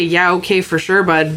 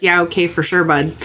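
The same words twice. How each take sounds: First: Put-on light Canadian accent, dry and curt; a hint of a Canadian, fed up but polite; pissed-off Canadian. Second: Put-on light Canadian accent, dry and curt; a hint of a Canadian, fed up but polite; Canadian passive-aggressive. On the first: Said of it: "if you hear a Canadian say". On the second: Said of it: "Or in Canada, it's".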